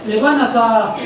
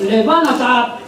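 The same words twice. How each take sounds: The two takes are said the same way.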